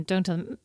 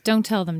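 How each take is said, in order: First: Softer, dropping away; quieter repeat. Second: Said in the usual way. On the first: Real, not acted. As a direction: let the repeat fade off. Repeating warning about kids.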